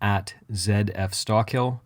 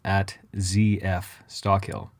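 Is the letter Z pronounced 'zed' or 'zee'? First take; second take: zed; zee. First: The letter Z is said as 'zed'. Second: The letter Z is said as 'zee'.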